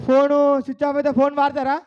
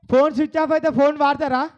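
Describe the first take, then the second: No difference in how they are said.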